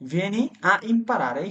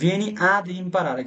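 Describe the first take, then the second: First: Two vowels meet with no linking consonant. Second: A d sound links the two vowels. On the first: "এখানে অব্লিগাটোরিও না" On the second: "আপনি তারপরে দি যুক্ত করতে পারেন"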